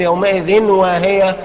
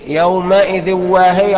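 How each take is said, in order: First: The n is pronounced clearly before w. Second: The n merges into w without nasal hum. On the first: "لما اقول يومئذ واهية يبقى كده انا خليته حكم اظهار" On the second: "ما تقولش يومئذ واهية على طول"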